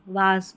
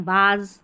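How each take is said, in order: First: The vowel is an open 'ah' sound. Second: The same.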